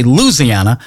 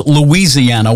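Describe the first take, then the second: First: Louisiana squeezed to LOOZ-ee-AN-uh; Southern Louisiana. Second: Louisiana said in full, loo-EE-zee-AN-uh; standard Louisiana. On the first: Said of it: "We in the South say". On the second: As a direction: give Louisiana all five syllables, loo-EE-zee-AN-uh. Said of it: "the rest of the country says". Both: Shown as a demonstration.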